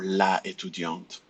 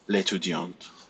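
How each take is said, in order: First: The article keeps its vowel before the noun. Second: The article's vowel is dropped before the noun. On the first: The speaker calls it wrong. "You cannot say ... la étudiante" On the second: The speaker calls it right. "So you will say ... l'étudiante"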